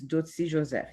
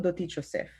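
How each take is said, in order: First: The name is pronounced the Haitian Creole way. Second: The name is pronounced the Spanish way. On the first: This is the original form of the name. "the real way to pronounce my name is Dotsi Joseph. That's in Creole" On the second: This is the form for Spanish speakers. "in Espanol, Doti Joseph"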